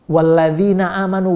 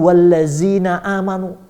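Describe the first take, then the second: First: The middle consonant is a soft th sound. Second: The middle consonant is a plain z sound.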